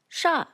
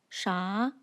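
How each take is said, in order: First: The pitch falls downward. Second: The pitch rises upward. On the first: "falls like this" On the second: "rises upwards like this"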